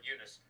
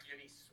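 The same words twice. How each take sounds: First: "Eunice" with a short i, YOO-niss; alternative pronunciation. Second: "Eunice" with a long ee, YOO-neece; alternative pronunciation. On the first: Host correcting the sister's name, "Eunice" as YOO-niss. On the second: Host unsure of the sister's name, "Eunice" as YOO-neece. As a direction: say "Eunice" ending like "niece". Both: Shown as a demonstration. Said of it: "or Eunice".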